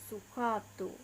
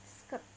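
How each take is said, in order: First: It is said with Japanese pronunciation. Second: It is said with English pronunciation.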